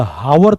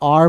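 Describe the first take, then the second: First: The word begins with an h sound. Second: The word begins with a vowel sound. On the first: The speaker calls it wrong. "ये हावर तो है नहीं" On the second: The speaker calls it right. "आर बोलते हैं इसे"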